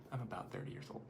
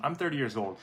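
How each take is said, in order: First: Very soft, whispered correction; whispered aside. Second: Said in the usual way. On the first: Real, not acted. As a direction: slip it in under your breath. Murmured aside correcting own age.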